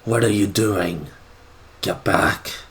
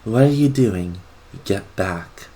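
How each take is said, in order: First: The voice is soft but too raspy. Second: The voice is soft and smooth.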